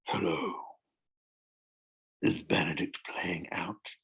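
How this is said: The voice keeps breaking up and down.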